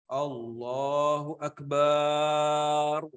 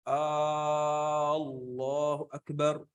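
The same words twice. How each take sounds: First: The vowel after b in Akbar is drawn out. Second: The opening vowel of Allahu is drawn out. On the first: The meaning is changed. "ada tambahan eh, alif gitu setelah ba. Ba-nya panjang gitu" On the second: It becomes a question whether God is great. "alifnya nih, yang di sini di, dipanjangin"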